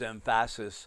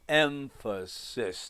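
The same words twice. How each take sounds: First: The syllables are said plainly, without exaggerated stress. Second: Each syllable is separated, the stressed one exaggerated. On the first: The speaker calls it wrong. "When when Johnny says emphasis" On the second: The speaker calls it right. "no, it's emphasis"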